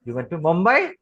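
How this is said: It rises on Mumbai like a question.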